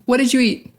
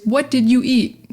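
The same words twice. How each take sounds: First: "did you" blended into "didju"; relaxed, quicker "What did you eat" with d and y joined; natural linking. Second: "did you" fully sounded as two emphasised words; careful textbook "What did you eat", robot-like separation; by the book. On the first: Showing what we'd say, natural linking. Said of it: "We'd say". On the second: Showing learners the original, by-the-book and over-emphasised. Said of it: "too much emphasis on the did you". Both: Shown as a demonstration.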